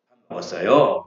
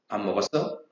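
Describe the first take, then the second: First: It is said gently with more energy. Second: It is said curtly with little energy.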